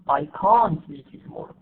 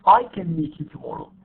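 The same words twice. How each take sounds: First: CAN'T stressed with a long, full vowel. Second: CAN short and unstressed, MEET carrying the weight; reduced can. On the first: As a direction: lean on "can't", keep its vowel open and full. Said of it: "وكمان قلنا النيجاتيفز". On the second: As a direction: glide over "can" to land on "meet". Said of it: "modal verbs". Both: Shown as a demonstration.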